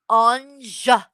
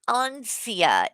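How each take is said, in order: First: The name has no s sound in the middle. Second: The name has an s sound in the middle. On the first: The speaker calls it right. "It's Anja" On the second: The speaker calls it wrong. "he can't even say your name right"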